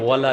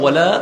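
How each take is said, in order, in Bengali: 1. la-এর স্বরবর্ণটি ছোট করে কেটে দেওয়া হয়। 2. la-এর স্বরবর্ণটি টেনে লম্বা করা হয়।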